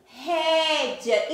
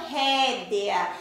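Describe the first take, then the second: First: "rédea" slowly, ending in -dja. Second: "rédea" slowly, with a full E, ré-de-a; spelling pronunciation. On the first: Teacher shows pupils the spoken form, "rédea" with I sound. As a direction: turn the E of "rédea" into an I glide. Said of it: "Eu usei o sonzinho do I". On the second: Teacher shows pupils the unused form, "rédea" with clear E. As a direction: keep the written E in "rédea". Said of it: "ia ter o sonzinho do E". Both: Shown as a demonstration.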